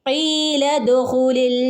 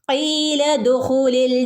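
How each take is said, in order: The two takes are said the same way.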